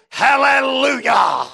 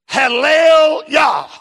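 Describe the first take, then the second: First: An 'oo' vowel links the two parts. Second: The two parts join with no vowel between. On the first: "there is a vowel sound inserted, happens to be the U, and it comes out like this" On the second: "let me put together"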